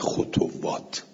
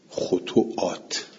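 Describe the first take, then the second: First: A w sound comes in the middle of the word. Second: A glottal stop comes in the middle of the word.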